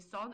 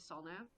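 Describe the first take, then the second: First: The name ends without the final n sound. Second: The name ends with a clear n sound. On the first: The speaker calls it wrong. "he would just say Sun because he couldn't be bothered to pronounce pronounce the n at the end" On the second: The speaker calls it right. "my real name is Sanne"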